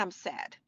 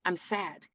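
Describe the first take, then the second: First: Dropped to a near-hush; quiet admission. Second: Soft admission. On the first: Speaker modeling honest grief, very soft and low. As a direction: let it fall away to almost nothing. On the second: Speaker modeling honest grief, softly. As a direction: say it plainly and quietly. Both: Shown as a demonstration. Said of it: "In this moment".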